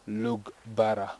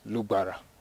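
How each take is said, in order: First: The middle consonants are a plain g and b. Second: The middle consonant is one glottal sound. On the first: This is how outsiders from the south say it. "our colleagues from the southern part of Uganda usually pronounce it as Lugbara" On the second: This is how native speakers say it. "We say Lubara. So it's a glottal sound. It's from inside"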